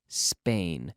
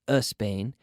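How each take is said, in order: First: The word starts directly with the s sound. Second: An extra vowel sound comes before the s. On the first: The speaker calls it right. "start the S sound in your mouth" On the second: The speaker calls it wrong. "not a Spain"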